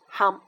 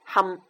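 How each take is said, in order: First: It is read with Cantonese pronunciation. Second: It is read with Cantonese pronunciation.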